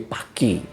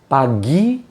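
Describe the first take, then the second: First: The middle of the word has a k sound. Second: The middle of the word has a g sound.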